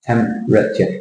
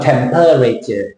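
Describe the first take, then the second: First: "Temperature" in three beats, TEMP-RA-TURE; lower, careful TEMP-ruh-chuh; dropped E. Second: "temperature" as TEM-PER-RAY-ture; extra syllable. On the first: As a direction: skip the E in "Temperature". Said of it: "crossed the E out". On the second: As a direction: pronounce the E in "temperature". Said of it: "You're not temperature". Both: Shown as a demonstration.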